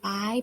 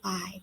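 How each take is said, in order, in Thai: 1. พยางค์นี้ออกเสียงด้วยเสียงสูง 2. พยางค์นี้ออกเสียงด้วยเสียงต่ำ (1) "ตรี" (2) "เอก"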